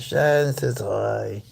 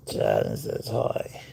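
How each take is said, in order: First: Said in the usual way. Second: Much lower, slow voicing of Shad. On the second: Owner voices Shad greeting viewers low and slow. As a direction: drop the voice and drawl it. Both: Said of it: "repeated lower".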